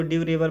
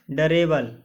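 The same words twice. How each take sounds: First: ड्यूरेबल opening on 'dyoo'; YOO glide. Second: डरेबल with a short unglided first vowel, 'da-re-bal'; variant without glide. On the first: Teacher giving the other reading, ड्यूरेबल with YOO. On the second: Teacher giving one reading of durable, डरेबल without glide. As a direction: say डरेबल with no 'yoo' after D. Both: Shown as a demonstration. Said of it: "या इसको ड्यूरेबल पढ़ते हैं".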